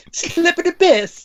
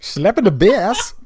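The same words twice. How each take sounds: First: High, slow Irish leprechaun voice; squeaky Irish brogue with a laugh; leprechaun accent. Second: High, slow, loud Irish leprechaun voice; hammed-up Irish brogue; leprechaun accent. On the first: Retold or imitated. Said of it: "That was Paul Rudd doing Slap in the Bass". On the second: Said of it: "That was a leprechaun".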